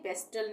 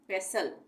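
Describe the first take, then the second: First: The word is said with a t sound. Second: The word is said without a t sound. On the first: The speaker calls it wrong. "पेस्टल नहीं बोलेंगे" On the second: The speaker calls it right. "टी नहीं बोलेंगे"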